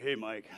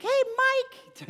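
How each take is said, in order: First: Much lower, softer manly greeting; deep grown-up voice. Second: Put-on very high, squeaky young kid's voice; Mickey Mouse squeak. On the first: Retold or imitated. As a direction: drop the voice way down like a grown young man. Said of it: "he's like". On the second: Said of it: "It sounded like M-, Mickey Mouse".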